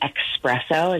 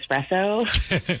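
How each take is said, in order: First: The word begins with an 'ex' sound. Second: The word begins with an 'ess' sound. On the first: This is how someone else said it. The speaker calls it wrong. "he kept saying espresso" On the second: This is the expected pronunciation. The speaker calls it right. "instead of espresso"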